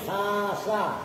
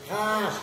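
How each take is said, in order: First: The word ends with a vowel after s. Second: The word ends sharply on the s sound. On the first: "tadi kan khasa" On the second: "dengan membaca sukun huruf sin"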